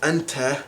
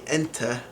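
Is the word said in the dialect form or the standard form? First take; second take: standard; dialect. First: The word is said in the standard form. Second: The word is said in the dialect form. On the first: "instead of anta" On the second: "they might say enta"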